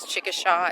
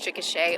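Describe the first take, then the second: First: Chickasha is pronounced the way an outsider says it. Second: Chickasha is pronounced the way locals say it. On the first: The speaker calls it wrong. "she mispronounces that name. It's she says" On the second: The speaker calls it right. "It's Chickasha, Oklahoma"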